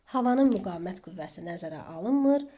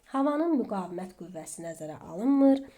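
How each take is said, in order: The two takes are said the same way.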